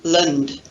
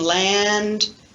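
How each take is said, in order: First: The vowel is reduced to a weak schwa. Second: The vowel is a full, open a sound. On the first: "the unstressed vowel schwa" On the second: "the stressed vowel a"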